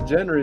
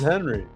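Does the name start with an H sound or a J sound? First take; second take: J sound; H sound. First: The name begins with a J sound. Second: The name begins with an H sound. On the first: The speaker calls it wrong. "His name's not Jenry" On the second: The speaker calls it right. "G's are pronounced like an H"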